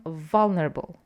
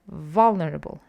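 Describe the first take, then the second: No difference in how they are said.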